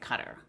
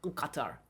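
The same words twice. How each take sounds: First: It is said without the guttural throat sound. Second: It is said with a guttural throat sound. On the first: English lacks the local sound. "We don't have that sound in the English language, and so we say" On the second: This is closer to the local pronunciation. "closer to their pronunciation, which is a guttural Qatar"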